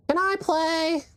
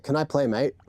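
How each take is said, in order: First: Put-on high, drawn-out little kid plea; mock a pestering child, pitched way up; squeaky imitation of a kid asking; begging kid. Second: Lightly put-on Aussie-British accent; casual mock UK accent, slipping into Australian; UK accent gone Australian. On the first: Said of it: "And Marky's more like". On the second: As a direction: toss it off with a hint of Australian. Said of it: "my U K accent is Australian today".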